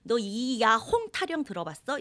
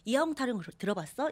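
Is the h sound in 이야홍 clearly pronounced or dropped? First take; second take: clear; dropped. First: The h sound in 홍 is clearly pronounced. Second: The h sound in 홍 is dropped and linked. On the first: The speaker calls it wrong. "이렇게 얘기를 안 하고" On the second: The speaker calls it right. "이렇게 얘기하잖아요"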